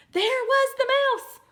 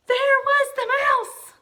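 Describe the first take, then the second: First: Loud high reread shout; high loud surprised shout; excited shout. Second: Loud, high, slow startled cry; high slow gasping shout. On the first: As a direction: belt it out like a shock. Rereads climax line. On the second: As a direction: shriek it out in shock. Gasped story climax. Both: Acted.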